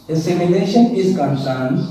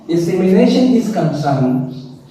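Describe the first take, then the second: No difference in how they are said.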